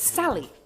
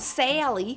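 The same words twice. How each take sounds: First: The first vowel is a quick short a. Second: The first vowel sounds like the word air. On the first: The speaker calls it right. "Something becomes quicker when there's two letters" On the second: The speaker calls it wrong. "it's not Sally"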